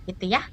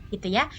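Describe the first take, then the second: No difference in how they are said.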